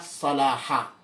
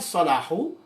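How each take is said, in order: First: The word ends with an a vowel. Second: The word ends with a u vowel. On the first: The speaker calls it right. "bacaan yang betul dan tepat adalah Salaha" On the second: The speaker calls it wrong. "Bukan Salahu"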